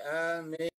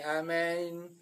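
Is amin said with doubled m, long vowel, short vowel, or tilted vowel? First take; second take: doubled m; tilted vowel. First: The first vowel is long, the m doubled. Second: The first vowel leans toward an e sound. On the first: "bil maddi kelawan diwaca dawa wa tasdid" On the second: "bil imalati kelawan diwaca imalah diwaca doyong"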